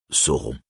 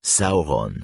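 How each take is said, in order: First: Sauron said so-ron, AU as a French O, nasal ending; wrong French o. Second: Sauron said saou-ron, AU like English how, with a rolled R; Sauron as sour. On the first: Reader showing the wrong French reading, Sauron with a plain O. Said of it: "et non". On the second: Reader teaching Sindarin vowels, Sauron rhymed with sour. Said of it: "ce qui donne en français". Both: Shown as a demonstration.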